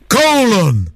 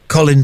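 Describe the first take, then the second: First: The name is said boldly, like a gladiator's name. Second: The name is said in a plain, everyday way. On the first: "make him sound, don't they, like a gladiator" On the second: "they don't pronounce it like that"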